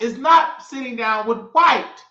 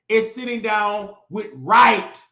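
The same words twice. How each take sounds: First: "white" leaned on as the wrong word; "white" marked as the word being rejected; stress on white. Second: "right" slow and weighted as the correct word; slow, emphatic "right" as the correction; stress on right. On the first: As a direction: put the weight on "white", then drop it. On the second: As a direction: land hard on "right", slowly. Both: Shown as a demonstration. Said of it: "R I G H T".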